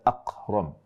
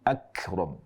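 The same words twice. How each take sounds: First: The k is made far back in the throat. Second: The k is made further forward on the palate. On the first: The speaker calls it wrong. "bukan akram" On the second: The speaker calls it right. "tapi akram"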